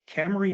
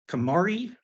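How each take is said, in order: First: The name sounds like the car. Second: The name does not sound like the car. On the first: The speaker calls it right. "It's kind of pronounced like the car" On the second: The speaker calls it wrong. "now I got to start over"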